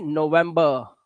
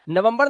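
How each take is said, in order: First: नवंबर as no-VEM-buh; lower, falling नवंबर with dropped r; teacher's model of English November; correct English form. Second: नवंबर as nuh-VUM-bur; short vowels and final r in नवंबर; Hindi-style नवंबर shown as wrong; wrong Hindi-style form. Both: Shown as a demonstration. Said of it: "नवंबर नहीं".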